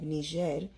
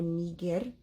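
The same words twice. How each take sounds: First: The G is soft, like a J. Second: The G is hard, as in go. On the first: It names the French-colonized country. "it is not pronounced that way" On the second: "classical Latin has a hard G"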